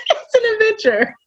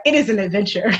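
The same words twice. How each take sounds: First: Breaking into high laughter; laughing so hard the voice squeaks. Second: Said in the usual way. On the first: Real, not acted. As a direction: say it through a laugh, pitched up.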